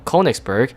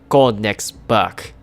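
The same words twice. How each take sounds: First: The name is said with an American English pronunciation. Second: The name is said with an attempted German pronunciation. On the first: "in natural good old American English" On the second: "I'm going to pronounce this ship as best as I can"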